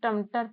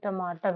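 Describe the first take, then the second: First: The second syllable has a short vowel. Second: The second syllable has a long vowel. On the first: The speaker calls it wrong. "अब देखो टमटर तो होता नहीं" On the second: The speaker calls it right. "टमाटर होता है"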